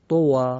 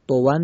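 First: The word ends with a long 'aa' vowel. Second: The word ends with an 'n' sound. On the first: The reciter stops on this word. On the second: The reciter does not stop on this word.

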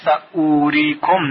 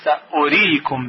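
First: The vowel after sa is drawn out long. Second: The vowel after sa is kept short. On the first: The speaker calls it wrong. "در اینجا سأوریکم نوشته شده" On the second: The speaker calls it right. "باید اون رو سأوریکم بخونیم با صدای کوتاه"

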